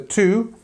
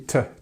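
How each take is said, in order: First: The vowel is a full oo sound. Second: The vowel is a reduced uh sound. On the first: "the two" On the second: "is actually T, today, because we're stressing the second part"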